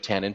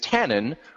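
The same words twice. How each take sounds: First: The name is said with a French pronunciation. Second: The name is said with an English pronunciation. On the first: "the French pronunciation of tannin" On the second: "tannin rather than the French pronunciation"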